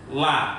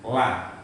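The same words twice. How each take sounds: First: The L sounds very thin and light. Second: The L sounds slightly heavy and fuller. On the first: The speaker calls it wrong. "ujung lidah dilipat seret menjadi lam. Seperti ini. La, nah itu kan la, itu melipat ujung lidah. Nah, itu nggak betul" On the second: The speaker calls it right. "la dari pinggiran tadi itu"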